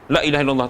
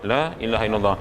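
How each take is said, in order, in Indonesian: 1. Huruf panjang dibaca sangat pendek. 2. Huruf panjang dibaca agak lebih panjang. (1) "jangan terlalu pendek. La ilaha illallah tak boleh lah" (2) "Patut ada panjang juga"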